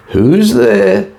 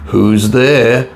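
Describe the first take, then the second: First: High, thin frail granny calling out; a very high, feeble old woman's reply. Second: A touch muffled, called from under covers; wolf calling out as if through a quilt; lightly muffled wolf-as-granny. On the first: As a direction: call out like a weak old grandmother in bed. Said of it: "came a frail old voice". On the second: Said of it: "called a muffled voice". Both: A narrator's reading.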